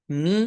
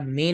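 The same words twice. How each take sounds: First: می said as "mee"; thin correct vowel. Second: میں said as "may"; wrong majhool vowel. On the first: Teacher shows how it is read, maroof "mee" in می. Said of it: "باریک پڑھا جائے گا". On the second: Teacher shows what not to read, majhool "may" in میں. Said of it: "نہیں پڑھا جائے گا". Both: Shown as a demonstration.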